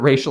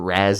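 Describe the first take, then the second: First: The name is said with an 'ay' vowel. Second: The name is said with an 'ah' vowel. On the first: The speaker calls it right. "they might pronounce it racial like once or twice correctly" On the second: The speaker calls it wrong. "they pronounce it Raz in this movie and it's not correct"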